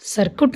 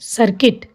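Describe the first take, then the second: First: The second syllable has a 'u' vowel. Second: The second syllable has an 'i' vowel. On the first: The speaker calls it wrong. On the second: The speaker calls it right.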